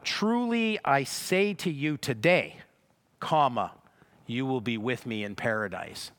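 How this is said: The break comes right after the word 'today'. Only the statement is made today. The speaker calls it wrong. "they view it as if it says"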